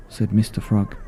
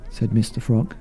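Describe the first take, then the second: No difference in how they are said.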